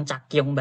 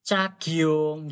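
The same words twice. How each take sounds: First: "cakyong" mocked with a plain k sound, the mistake; imitating the wrong reading. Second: "Cakyong" with the g gliding into the yong; correct reading demo. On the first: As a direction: echo the student's "cakyong" back as an error. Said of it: "Kok malah bacanya cakyong". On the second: Shown as a demonstration. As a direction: model "Cakyong" the right way. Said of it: "gini bacanya".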